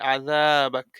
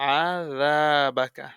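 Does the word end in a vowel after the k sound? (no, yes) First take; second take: no; yes. First: The word ends on k with no vowel. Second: The word ends with a short vowel after k. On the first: The reader stops and takes a breath here. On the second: The reading continues without stopping.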